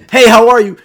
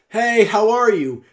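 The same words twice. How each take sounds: First: It is yelled in an aggressive tone. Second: It is projected loudly without yelling, calmly.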